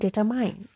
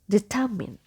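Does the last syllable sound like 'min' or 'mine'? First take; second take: mine; min. First: The last syllable sounds like 'mine'. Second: The last syllable sounds like 'min'. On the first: The speaker calls it wrong. "It's not mine here, so it's not determine" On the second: The speaker calls it right. "The correct pronunciation is determine"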